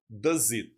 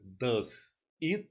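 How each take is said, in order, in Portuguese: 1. As duas palavras são ditas juntas, num único som ligado. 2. As duas palavras são ditas separadamente e com cuidado.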